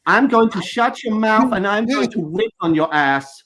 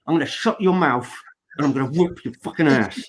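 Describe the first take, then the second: First: Imitating [name]. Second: Lower, hard-man threat; tough man's version. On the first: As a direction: say the threat like it doesn't quite land. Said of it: "which sounds different to me". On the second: Shown as a demonstration. How a man would say the threat, low and hard. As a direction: growl it like a real tough guy. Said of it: "if a man says it".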